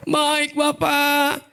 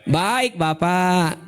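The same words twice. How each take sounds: First: Higher, very slow syrupy "Baik Bapak"; sweet yes. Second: Very slow, syrupy "Baik, Bapak"; sweet yes. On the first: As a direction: drawl it out, fake sweet. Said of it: "kayak kita tuh". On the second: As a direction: drawl it out sugary sweet. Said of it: "manis nggak? Manis banget". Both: Retold or imitated.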